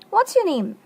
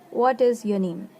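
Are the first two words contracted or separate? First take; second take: contracted; separate. First: The words are contracted and flow together smoothly. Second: Each word is said separately, without contraction. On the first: The speaker calls it right. "if in a proper way, if you pronounce it" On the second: The speaker calls it wrong. "Mostly people pronounce as"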